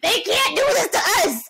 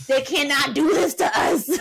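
First: Pitched-up loud protest, hitting do; higher outraged cry. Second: Outraged yell. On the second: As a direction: yell it at the TV in disbelief. Reliving the match in outrage. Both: Retold or imitated.

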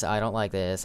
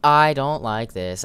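First: Said in the usual way. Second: I don't like this, louder and higher, alarmed; loud fearful cry. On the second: Real, not acted. Player spooked by the monster, loud alarmed cry. Frightened repeat of phrase.

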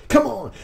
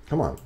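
First: Much higher and louder plea; impatient urging. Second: Said in the usual way. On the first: Real, not acted. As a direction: beg the opponent to finally take. Urging opponent, most impatient.

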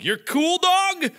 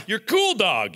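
First: Higher, slow, stretched out "You're Cool Dog?"; can't believe it's Cool Dog; slow, high disbelief at the word "Dog"; incredulous question. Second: Said in the usual way. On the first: Real, not acted. Repeats name in disbelief.

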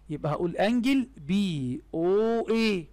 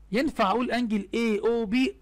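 First: Said in the usual way. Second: رising tune on بي in اي او بي; mock-questioning a wrong answer, higher; doubting question. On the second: Shown as a demonstration. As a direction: ask it as a trap, pitch rising high at the end. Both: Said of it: "مستحيل طبعًا".

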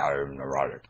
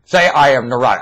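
First: Much lower and softer, another self speaking; puka voice. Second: Said in the usual way. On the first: Pretend. Puka answering the prompt, low and soft. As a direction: drop low and soft as the inner voice. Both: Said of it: "That tone of voice, that's puka".

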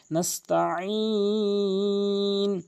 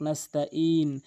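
First: Slow নাস্তাইন with mid-throat ain; chanted long নাস্তাইন from the throat; correct ain. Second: নাস্তাইন with hamza for ain; নাস্তাইন, no throat squeeze; common mispronunciation. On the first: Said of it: "আইনটি হলকের মাঝখান থেকে". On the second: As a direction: say নাস্তাইন with a plain glottal break. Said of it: "আইনের জায়গায় হামজা এনে উচ্চারণ করে". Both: Shown as a demonstration.

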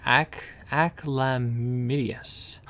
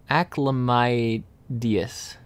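First: Aclamidius with a short i, ack-la-MID-ee-us; mispronounced word. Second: Acclamidius with a long i, ack-la-MY-dee-us; corrected pronunciation. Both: Shown as a demonstration. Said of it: "I pronounced that wrong".

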